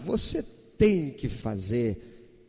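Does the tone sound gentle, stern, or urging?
gentle. It sounds gentle and mild, like a suggestion. It would be good to do it. "É algo que seria bom se você fizesse"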